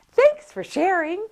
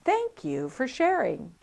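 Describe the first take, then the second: First: "Thanks for sharing" high, loud and rising; high bright practice take. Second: Said in the usual way. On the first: Shown as a demonstration. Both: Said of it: "I stood in front of the mirror".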